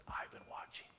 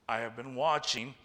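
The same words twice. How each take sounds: First: Hushed, breathy-free whisper of a warning. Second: Said in the usual way. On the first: Acted. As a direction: lean in and whisper it like a secret threat. Preacher whispers God's warning. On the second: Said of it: "whispered retake of same line".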